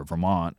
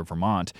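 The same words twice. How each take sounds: First: VERMONT with no final T, "Vermon'"; without a T. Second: Said in the usual way. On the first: Shown as a demonstration. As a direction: cut VERMONT off before the T. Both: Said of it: "it's easier to say it without a T".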